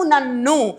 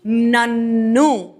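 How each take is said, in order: First: Said in the usual way. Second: Slow stretched word. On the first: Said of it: "ఏం చెప్తాము?". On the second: Shown as a demonstration. Teacher stretching నన్ను for students, very slow. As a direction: draw out నన్ను very slowly. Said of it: "ఏం మారాలి?".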